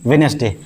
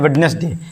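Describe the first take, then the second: First: No d sound is heard in the first syllable. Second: A d sound is heard in the first syllable. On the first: The speaker calls it right. "इसको पढ़ेंगे वेनेसडे" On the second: The speaker calls it wrong. "बहुत सारे इसको पढ़ते हैं वेडनेसडे"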